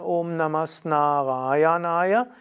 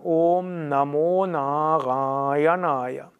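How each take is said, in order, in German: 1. Das mittlere Wort endet auf einen 'as'-Laut. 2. Das mittlere Wort endet auf einen 'o'-Laut. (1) "Da sagt man nicht Namas Narayanaya. Es ist auch schwierig auszusprechen" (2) "dann wird das As zu O. Und deshalb sagt man"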